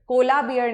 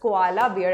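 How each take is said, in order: First: Koala is squeezed into two syllables. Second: Koala is said with three full syllables. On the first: The speaker calls it wrong. "कोला beer नहीं" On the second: The speaker calls it right. "This is कोआला beer"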